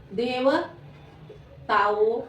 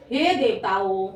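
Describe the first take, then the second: First: देवताओं very slowly, split into separate pieces; syllable by syllable. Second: Said in the usual way. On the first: Shown as a demonstration. Teacher dictating to pupils, देवताओं slowly broken up. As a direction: sound out देवताओं with a gap inside.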